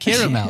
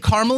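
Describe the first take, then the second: First: The word is said with all three syllables. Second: The word is said with two syllables. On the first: This is meant to sound fancy. "I want to sound bougie, so I say caramel" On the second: This is the everyday way of saying it. "I would say caramel if I'm using it in a sentence"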